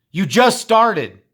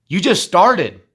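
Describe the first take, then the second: First: "You just started" drawn out slow, higher and louder; slow emphatic repeat. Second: Louder and higher, pushing them on; rising exhortation. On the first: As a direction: hammer each word of "You just started". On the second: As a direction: call it out like a coach. Exhorting students, said twice. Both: Real, not acted.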